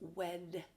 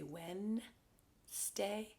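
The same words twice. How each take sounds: First: The D sound is clearly pronounced. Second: The D sound is left out. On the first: The speaker calls it right. "really it's Wednesday" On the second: The speaker calls it wrong. "a lot of people pronounce it wrong. They say Wednesday"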